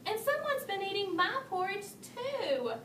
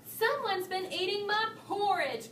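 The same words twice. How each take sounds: First: Higher, mildly cross mama bear; a hint of annoyance, understated; crossly. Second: Higher, lightly growled complaint; a touch of a cross papa bear; mock growl. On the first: Mama Bear adding her complaint, mildly cross. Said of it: "added Mama Bear crossly". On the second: Papa Bear finding his porridge eaten, mild mock growl. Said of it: "growled Papa Bear". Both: A narrator's reading.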